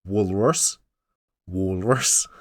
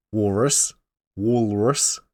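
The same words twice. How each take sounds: The two takes are said the same way.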